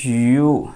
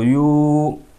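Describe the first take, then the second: First: The vowel is said short and quick. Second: The vowel is drawn out long.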